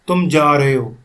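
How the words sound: It is said firmly like a command. The listener is being ordered to go. "यहाँ पे मैं order दे रहा हूँ"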